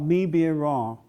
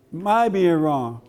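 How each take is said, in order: First: Said in the usual way. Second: "My being wrong" said very slowly and distinctly; "My" drawn out with careful emphasis; deliberate correction. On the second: Shown as a demonstration. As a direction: stretch out "My" as the corrected word. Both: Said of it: "He correct me all the time".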